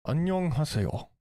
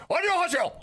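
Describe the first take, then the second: First: The non-threatening 안녕하세요 option, said fast; quick hello. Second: 안녕하세요 thrown out high, like a threat; testing a threatening 안녕하세요; threatening hello. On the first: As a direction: rush 안녕하세요 out casually. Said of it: "or should I do, like". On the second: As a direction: make 안녕하세요 sound menacing. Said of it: "Does it sound threatening if I'm like". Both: Shown as a demonstration.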